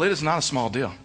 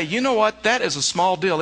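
First: "It is not a small deal" lower and weighted on "not"; firm rebuttal. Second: Mock objector. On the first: Shown as a demonstration. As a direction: land "not" flatly and firmly. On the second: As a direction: voice the listener who waves it off. And you may say.

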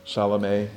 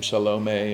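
First: Salome with an open first A and weak middle, SAH-luh-may. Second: Salome with a long stressed O, suh-LOH-may. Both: Shown as a demonstration. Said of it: "however you pronounce her name".

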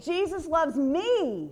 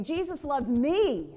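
First: Slow, higher, me hit hard; Jesus loves ME, me stretched and stressed. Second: Me pressed firmly at the end; Jesus loves ME, me weighted; stress on me. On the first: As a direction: pound the word me into your heart. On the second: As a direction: lean into the word me, slow. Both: Shown as a demonstration. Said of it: "emphasize that me word".

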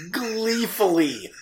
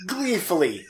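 First: "gleefully" stretched slow and sing-song; drawn out. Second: Said in the usual way. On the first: Shown as a demonstration. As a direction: stretch "gleefully" out slowly with relish.

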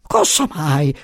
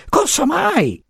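First: Slightly raised flustered question; startled first cry. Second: Much higher, alarmed repeat; panicked. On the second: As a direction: shriek it back in dismay. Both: A narrator's reading. Giacomo flustered, repeating.

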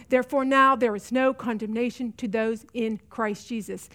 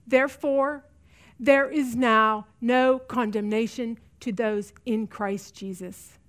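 First: Said in the usual way. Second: Slow and quiet, dropping away on "Christ Jesus"; tender assurance, slowing and softening to the end; slow, soft scripture. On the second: Real, not acted. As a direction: lay the verse down gently, word by word. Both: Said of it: "I want you to hear me on this".

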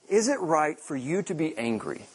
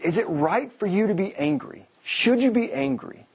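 First: Said in the usual way. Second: Higher, rising gentle challenge; voicing God's question. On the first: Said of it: "the Lord replied". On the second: God asking Jonah if his anger is right, higher and probing. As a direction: ask it like a patient father. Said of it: "so here he's like".

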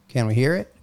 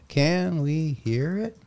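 First: Said in the usual way. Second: Slow, high robot voice. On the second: Shown as a demonstration. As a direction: read it out like a robot. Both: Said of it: "in Robot [name] voice".

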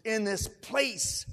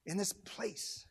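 First: "In this place" drawn out very slowly; urging emphasis. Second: Very soft, solemn delivery; hushed invitation. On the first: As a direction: give each word of "In this place" slow weight. Urging, repeated with more weight. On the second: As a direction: invite gently, almost under the breath. First take, before the urging. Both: Real, not acted.

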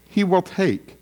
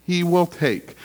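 First: "He" hit hardest, "will take" falling; "He" weighted, then drop; stress on HE. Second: "will" hit hardest, falling tune; "will" weighted, then drop; stress on WILL. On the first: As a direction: point at the king with "He". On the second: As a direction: insist it is certain with "will". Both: Shown as a demonstration. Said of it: "Did you hear my emphasis?".

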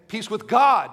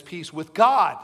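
First: God punched louder, held long; stress on God. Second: Said in the usual way. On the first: Shown as a demonstration. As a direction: lean hard on the word God. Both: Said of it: "Do you hear the emphasis there?".

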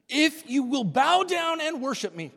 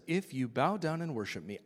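First: High, loud tempter; a grand, loud offer from the tempter; serpent voice. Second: Said in the usual way. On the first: Acted. Preacher voicing the serpent tempting Jesus, high and loud.

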